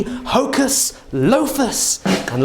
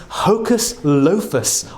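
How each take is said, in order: First: High, slow magic incantation; kids party magician. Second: Said in the usual way. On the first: Pretend. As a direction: intone it like a stage magician. Casting a spell on bread tin. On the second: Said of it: "say the magic words hocus lofus".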